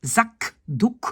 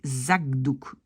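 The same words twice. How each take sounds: First: Zakdouk in two separate beats with a crisp k; as spelled, with k. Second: Zagdouk run together with a voiced g; k softened to g. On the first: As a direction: say Zakdouk split after a hard k. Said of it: "on écrit ça avec un K". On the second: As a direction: say Zagdouk with g before the d. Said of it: "on va plutôt prononcer Zagdouk". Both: Shown as a demonstration.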